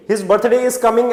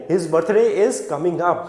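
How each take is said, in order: First: Said in the usual way. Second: His birthday is coming up, slowly and clearly, with up kept in; correct version, slow. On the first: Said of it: "ऐसे नहीं". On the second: Shown as a demonstration. Teacher gives students the correct sentence, slow and careful. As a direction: spell out the right sentence at a slow pace so up is heard. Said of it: "ध्यान देना है up के लिए".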